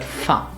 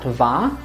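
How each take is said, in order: First: It begins with an f sound. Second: It begins with a v sound. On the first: The speaker calls it right. "but fa" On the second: The speaker calls it wrong. "not va"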